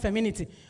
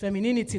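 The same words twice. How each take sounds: First: The word is said with one syllable dropped. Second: The word is said with five full syllables. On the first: The speaker calls it wrong. "not femininity" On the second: The speaker calls it right. "That nini must enter"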